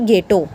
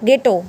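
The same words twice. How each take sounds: First: The first consonant is an aspirated gh sound. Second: The first consonant is a plain g sound. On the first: The speaker calls it wrong. "ना कि गेटो। गेटो नहीं बोलेंगे इसको" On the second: The speaker calls it right. "एच यहाँ पे silent रखेंगे"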